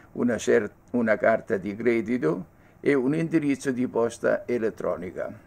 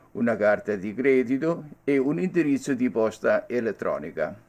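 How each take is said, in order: Both takes have the same delivery.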